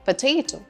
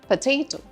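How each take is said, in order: Both takes have the same delivery.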